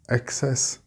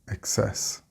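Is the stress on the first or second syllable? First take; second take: first; second. First: The stress is on the first syllable. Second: The stress is on the second syllable. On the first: "with the stress on the first" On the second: "or the second syllable"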